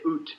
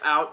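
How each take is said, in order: First: It is said with a Canadian accent. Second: It is said with an American accent.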